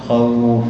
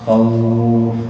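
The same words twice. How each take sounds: First: The vowel is lengthened for two counts. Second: The vowel is lengthened for four counts. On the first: "تقف إما حركتين" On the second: "أو أربعة"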